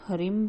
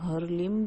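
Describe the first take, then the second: First: An r sound follows the h. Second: An r then l sound follows the h. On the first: "कई लोग हरिम भी इसका उच्चारण करते हैं" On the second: "कई लोग हरलिम भी करते हैं"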